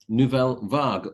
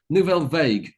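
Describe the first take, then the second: First: The name is said with a French pronunciation. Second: The name is said with an American pronunciation.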